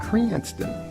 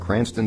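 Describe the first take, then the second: First: The vowel is drawn out and lengthened. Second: The vowel is said at normal length.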